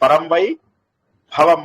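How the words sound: A short pause splits vai from bhavam. The speaker calls it wrong. "వై దగ్గర pause"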